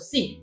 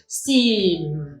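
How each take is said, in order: First: The word is said quickly and briefly. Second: The word is said slowly and drawn out. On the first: "我们讲快一点啊，就 sim" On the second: "只要你慢慢来念是 sim"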